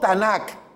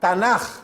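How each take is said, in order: First: The final sound is a hard k. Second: The final sound is a soft, breathy j. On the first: The speaker calls it wrong. "No como K" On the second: The speaker calls it right. "se pronuncia suave como una J"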